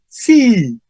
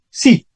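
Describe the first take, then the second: First: It starts on a high pitch. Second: It starts at normal pitch and ends flatly. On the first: It contradicts a negative question. "Pero empieza más alto" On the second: It simply confirms an affirmative question. "si la pregunta es afirmativa, yo digo, ¿tienes novio? Sí, punto"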